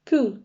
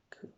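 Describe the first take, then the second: First: Bright, loud "Cool" feigning indifference; a light show of not minding; feigned cool. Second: Said in the usual way. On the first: A narrator's reading. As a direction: pretend you don't care.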